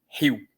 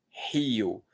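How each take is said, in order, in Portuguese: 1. O I e a vogal final se juntam em uma só sílaba. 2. O I e o O ficam em sílabas separadas.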